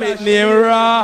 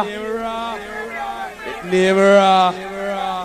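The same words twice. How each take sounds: First: Said in the usual way. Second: Raw stretched very long and slow, trailing off; drawn-out emphasis. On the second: Shown as a demonstration. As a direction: draw out the word Raw for effect, very slowly.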